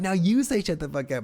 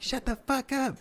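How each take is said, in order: First: Raised, higher-pitched prompt to a crowd; retold onstage holler; mock yelled command. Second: Very high falsetto crowd chant; mock shout in a thin high voice; mimicked crowd yell. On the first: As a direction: egg the room on, voice pitched up. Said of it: "screaming at these people". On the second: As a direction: answer as a whole room, squeaky and high. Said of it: "they're like".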